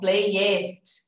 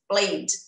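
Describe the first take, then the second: First: The ending is said as an extra syllable. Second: The ending is only a short D sound. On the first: The speaker calls it wrong. "E não play it" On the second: The speaker calls it right. "Só o som do D"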